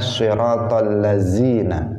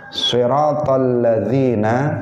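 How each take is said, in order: First: The consonant is a buzzing 'z' sound. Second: The consonant is a soft voiced 'th' sound.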